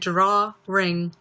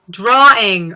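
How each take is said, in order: First: An r sound is inserted between the syllables. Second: No r sound is inserted between the syllables. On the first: The speaker calls it wrong. "I was pronouncing it draw ring" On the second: The speaker calls it right. "But it's drawing"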